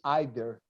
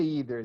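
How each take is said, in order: First: It is said in an English pronunciation. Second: It is said in a non-English pronunciation. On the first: "They say either" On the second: "They don't say either"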